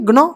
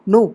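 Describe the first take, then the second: First: The g is sounded before the n. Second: The g is silent; it starts with n. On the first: The speaker calls it wrong. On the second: The speaker calls it right.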